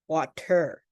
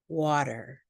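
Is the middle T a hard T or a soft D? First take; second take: hard T; soft D. First: The T is a sharp, popped T sound. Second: The T is a soft, light D sound. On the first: The speaker calls it wrong. "we do not say" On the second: The speaker calls it right. "light D sound"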